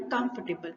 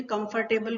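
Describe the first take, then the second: First: कंफर्टेबल softly as "kumf-tuh-bl"; corrected pronunciation. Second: कंफर्टेबल with a full "fur" syllable; spelling pronunciation. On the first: Teacher telling learners what to say, कंफर्टेबल as "kumf-tuh-bl". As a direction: squeeze out the "fur" in कंफर्टेबल, falling at the end. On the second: Teacher reading the word as learners see it, कंफर्टेबल with clear "fur". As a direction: read कंफर्टेबल as written, com-fur-table. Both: Shown as a demonstration. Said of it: "आपको क्या बोलना है?".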